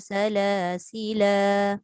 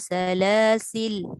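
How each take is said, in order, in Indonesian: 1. Kata ini berakhir pada vokal yang ditahan dua ketukan. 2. Kata ini berakhir mendadak pada l terakhir. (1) "dijadikan dia dua harakat" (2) "Dia kata sukun pada lam... Dia berhenti macam tu je"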